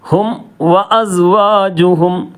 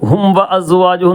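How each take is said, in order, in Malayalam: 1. അവസാനത്തെ m വ്യക്തമായും കൃത്യമായും ഉച്ചരിക്കുന്നു. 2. അവസാനത്തെ m അടുത്ത വാക്കിലേക്ക് ലയിച്ചുപോകുന്നു. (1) "ഹും എന്ന് പറഞ്ഞ് മീമിന് വെളിവായി" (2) "അതൊരിക്കലും പറയാൻ പാടില്ല"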